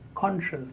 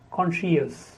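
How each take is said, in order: First: No extra vowel sound follows the sh sound. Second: An extra vowel sound follows the sh sound. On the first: The speaker calls it right. "The correct pronunciation is conscious" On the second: The speaker calls it wrong. "Many people, they speak year after sh"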